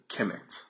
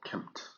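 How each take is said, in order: First: A vowel is heard between the M and T. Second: No vowel is heard between the M and T. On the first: This is the common modern way of saying it. "people usually call it Kemet, which is K E M E T" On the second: This follows the original spelling without vowels. "I prefer to just call it Kemt"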